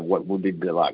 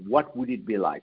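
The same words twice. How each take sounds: First: It sounds doubtful and dismissive. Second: It sounds open and genuinely curious. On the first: The asker does not expect an answer. The speaker calls it wrong. "You couldn't ask it by going" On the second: The asker expects to find an answer. The speaker calls it right. "your tone must already presuppose that you're going to find an answer"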